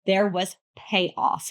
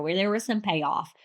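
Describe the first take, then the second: First: Slow, weighted "There was payoff"; emphatic repeat. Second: Said in the usual way. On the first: Real, not acted. Reviewer assuring listeners the slow burn paid off, slow and emphatic. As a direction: land "was" and "payoff" slowly and firmly.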